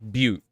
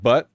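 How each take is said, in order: First: The word sounds like 'beaut', with a long vowel. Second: The word sounds like 'but', with a short vowel. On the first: The speaker calls it right. "it's Butte" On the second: The speaker calls it wrong. "not but"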